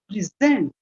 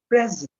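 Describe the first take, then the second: First: The stress is on the second syllable. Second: The stress is on the first syllable. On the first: The word is used as a verb. "when used as a verb, it is pronounced present" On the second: The word is used as an adjective or noun. "if used as an adjective or a noun, it is used pronounced present"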